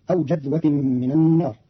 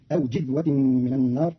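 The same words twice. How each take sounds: First: Said in the usual way. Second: "جذوة" said jidhwa; jim with kasra. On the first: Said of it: "قرأ قالون كلمة جذوة". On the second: Shown as a demonstration. Teacher shows Qalun's reading, "جذوة" as jidhwa. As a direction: put i after the j of "جذوة". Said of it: "بكسر الجيم فتصير".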